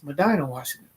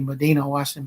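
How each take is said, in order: First: Medina is said with the local pronunciation. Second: Medina is said with an outsider's spelling-based pronunciation. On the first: The speaker is from the area. The speaker calls it right. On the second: The speaker is not from the area. The speaker calls it wrong. "if you're not from there, you're going to say Medina"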